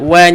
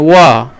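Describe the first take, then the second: First: The syllable is light and thin. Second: The syllable is heavy and thick. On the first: The speaker calls it right. "wa nipis" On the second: The speaker calls it wrong. "Jangan wa"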